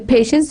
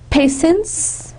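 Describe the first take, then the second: First: The middle consonant is an sh sound. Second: The middle consonant is an s sound.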